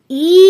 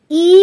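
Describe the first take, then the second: First: "ই" drawn out long; a lengthened, sustained "ই"; long vowel. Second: "ই" held only briefly; a short, separate "ই"; short vowel. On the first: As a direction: stretch and hold "ই". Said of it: "দীর্ঘ এর উচ্চারণটা একটু দীর্ঘ হবে". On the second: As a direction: keep "ই" short. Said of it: "কম সময় হবে". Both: Shown as a demonstration.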